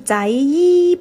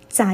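First: An extra 'yi' vowel is added at the end. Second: The syllable ends with no extra vowel. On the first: The speaker calls it wrong. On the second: The speaker calls it right.

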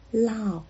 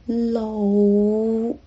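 First: The word is pronounced the Mandarin way. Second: The word is pronounced the Cantonese way.

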